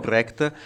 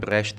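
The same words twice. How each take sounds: First: The name has an Italianized everyday pronunciation. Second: The name has its original German pronunciation. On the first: This is how people commonly say it so they understand. "diciamo Brecht" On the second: This is how the name is properly pronounced. "che si pronuncia Brecht"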